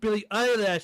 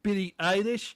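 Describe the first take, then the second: First: The surname ends with a 'lash' sound. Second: The surname ends with a 'lish' sound. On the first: "I've been play- pronouncing it Billie Eyelash this whole time" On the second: "You pronounce it Billie Eilish?"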